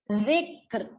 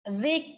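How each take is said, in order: First: A short final r is heard after the k. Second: The word ends on k with no r. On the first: The speaker calls it right. "baru membunyikan huruf ro setengah harkat" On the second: The speaker calls it wrong. "Mana ro-nya tidak dibaca?"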